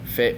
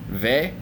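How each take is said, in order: First: It begins with an F sound. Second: It begins with a V sound. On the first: "fe with an F sound" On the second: "can be pronounced as ve"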